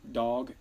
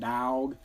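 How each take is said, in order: First: The word has a plain, standard vowel. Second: The word has a drawn-out 'dawg' vowel. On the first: The speaker calls it right. "the proper spelling is D O G" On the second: The speaker calls it wrong. "not D A W G"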